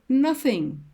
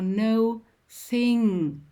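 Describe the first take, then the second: First: The word is said at a normal pace. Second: The word is said slowly, split in two.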